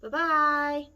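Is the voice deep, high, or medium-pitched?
medium. It is said in a middle-sized voice.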